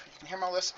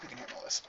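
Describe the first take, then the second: First: "lisp?" lifted high at the end as a question; questioning rise. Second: Said in the usual way. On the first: Shown as a demonstration. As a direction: ask "You can hear my lisp?" with a rising tune.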